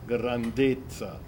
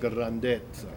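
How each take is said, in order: First: The stressed e vowel is closed. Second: The stressed e vowel is open. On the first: The speaker calls it right. "that's a closed vowel. What you should be singing is grandezza" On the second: The speaker calls it wrong. "not grandezza"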